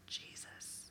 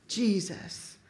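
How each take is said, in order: First: Breathless whisper of Jesus; whispered name. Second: Said in the usual way. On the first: Shown as a demonstration. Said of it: "Oh, I felt a little something". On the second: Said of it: "I start to get a little volume in my voice".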